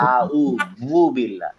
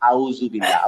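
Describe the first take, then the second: First: The middle consonant is a soft th sound. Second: The middle consonant is a buzzing z sound. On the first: The speaker calls it right. "বলতে হবে আউ বু বিল্লা" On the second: The speaker calls it wrong. "Not আউজু বিল্লা"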